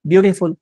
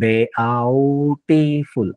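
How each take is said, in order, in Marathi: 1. पहिले स्वर एकाच आवाजात मिसळले जातात. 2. पहिले स्वर वेगळ्या आवाजांप्रमाणे म्हटले जातात. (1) "ई ए यू ह्याचं कॉम्बिनेशन ब्यू यू मध्ये झालं" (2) "बेआउटिफुल असं नाही करत"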